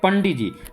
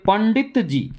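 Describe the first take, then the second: First: Some sounds are dropped to say it quickly. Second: Every sound of the phrase is said fully. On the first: "short में" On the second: "पंडित जी इतना लंबा है"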